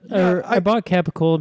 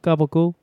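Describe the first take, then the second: First: The word is said as capicola. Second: The word is said as gabagool. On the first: "I bought capicola" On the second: "they pronounce it gabagool"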